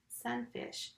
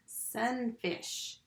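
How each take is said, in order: First: Said in the usual way. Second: "Sunfish" drawn into two beats, sun, fish; split into syllables. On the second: Shown as a demonstration. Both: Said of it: "So the first syllable is sun".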